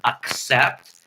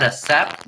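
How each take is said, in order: First: "accept" drawn out slowly, in a voice unlike his own, as the wrong version. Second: "accept" said the normal way, with the stressed "ak-" start; accept, correct way. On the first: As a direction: stretch out "accept" slowly as the mistaken form. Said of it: "And yes, I said accept, not accept". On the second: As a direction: say "accept" plainly, as it is meant. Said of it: "And yes, I said accept". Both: Shown as a demonstration.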